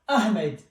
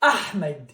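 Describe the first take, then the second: First: The h is a plain, light English h. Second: The h is a strong, breathy throat sound. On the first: "In English we say ah, Ahmed" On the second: "So the original one is Ahmed"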